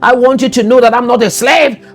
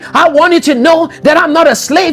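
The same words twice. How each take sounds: First: It is said in the speaker's plain accent. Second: It is said in a Nigerian accent.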